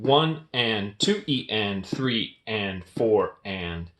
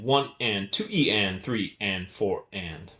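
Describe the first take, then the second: First: The counting is spoken slowly. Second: The counting is spoken quickly. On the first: "I'm going to say it slow first" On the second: "And then I'm going to speed it up"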